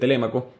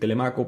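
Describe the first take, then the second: First: The stress falls on the second syllable. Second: The stress falls on the third syllable. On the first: This is the standard pronunciation. The speaker calls it right. "se pronuncia correctamente Telémaco" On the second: This is how it is said locally in Maracaibo. The speaker calls it wrong. "así lo aprendí, en Maracaibo se pronuncia así"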